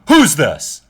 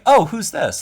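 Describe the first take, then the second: First: It is asked in a demanding, arrogant way. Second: It is asked in a polite, curious way.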